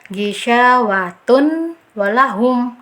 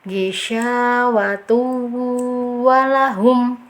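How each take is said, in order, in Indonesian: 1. Bunyi n diucapkan dengan jelas tanpa menyatu. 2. Dengung ditahan selama dua harakat. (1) "jangan dibaca ijhar ... itu kan ijhar jelas" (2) "Cara baca yang betul seperti ini ya. ... harus tahan dulu ya uh, gunahnya"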